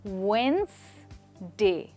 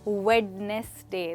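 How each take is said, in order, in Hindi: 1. पहला d silent है, उच्चारित नहीं होता। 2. पहला d साफ़ तौर पर उच्चारित होता है। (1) "यहाँ डी की साउंड नहीं है, पहले डी की। तो इसका मतलब है कि हम इसको कहेंगे वेंसडे" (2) "ना कि वेडनेसडे"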